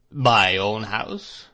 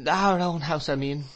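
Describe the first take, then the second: First: Slow, measured, menacing echo; stern repetition. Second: Higher, a hurried frightened correction; faltering. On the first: Husband throws her words back at her, slow and cold. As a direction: drag out each word as a cold warning. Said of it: "repeated Mister Murdstone". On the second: Frightened mother corrects herself to her husband, faltering. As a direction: back down quickly, frightened. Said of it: "faltered my mother". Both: A narrator's reading.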